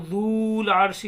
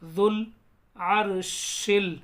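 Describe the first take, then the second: First: The vowel in the first word is drawn out long. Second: The vowel in the first word is kept short. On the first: The speaker calls it wrong. "इसको जूल आरशी नहीं पढ़ेंगे, क्योंकि इसके ऊपर अगर जज्म होती वाव के ऊपर तो खींचते" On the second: The speaker calls it right. "Silent रहेगा, तो डायरेक्ट जाल को लाम में मिलाएंगे"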